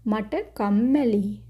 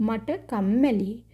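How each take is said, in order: No difference in how they are said.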